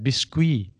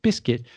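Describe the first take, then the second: First: It is said with a French pronunciation. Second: It is said with an English pronunciation. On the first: "it is like the French word" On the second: "because that's how you pronounce it"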